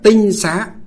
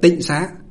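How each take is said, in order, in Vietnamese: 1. Âm tiết đầu có thanh bằng. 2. Âm tiết đầu có thanh trầm, thắt hầu. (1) "ngày xưa nguyên âm của nó gọi là tinh xá" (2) "bây giờ chúng ta đọc là tịnh xá"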